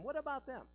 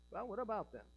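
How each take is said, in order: First: High-pitched, insistent mock objection; imagined objector. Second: Said in the usual way. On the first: Preacher voicing those who want English worship, mock objection. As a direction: push the question up high, as an objector. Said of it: "But some might say".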